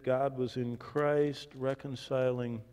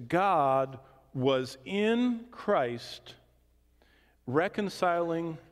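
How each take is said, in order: First: Said in the usual way. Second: IN drawn out and hit hard in "God was in Christ"; very slow, weighty restatement leaning on IN; stress on IN. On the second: Shown as a demonstration. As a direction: hammer home "in", word by word. Repeats verse to drive point home.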